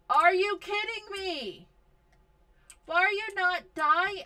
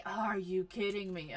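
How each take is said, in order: First: Higher, louder disbelieving yell; loud exasperated disbelief; exasperated outburst. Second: Said in the usual way. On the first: Real, not acted. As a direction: blurt out your disbelief, loud and high. Exasperated at game event.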